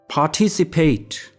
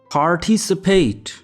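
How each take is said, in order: First: It is said with a British accent. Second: It is said with an American accent. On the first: "In British English, we pronounce it as participate" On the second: "And in American English, we pronounce it as participate"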